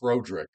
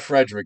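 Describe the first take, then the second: First: The first syllable sounds like 'frod'. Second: The first syllable sounds like 'fred'. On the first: The speaker calls it right. "it's Froderick" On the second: The speaker calls it wrong. "It's not Frederick"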